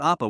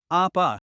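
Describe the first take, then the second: First: Said in the usual way. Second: Vulnerable call. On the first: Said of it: "calls out Appa". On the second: Acted. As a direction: let Appa sound small and tender. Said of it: "calls out Appa with a hint of vulnerability".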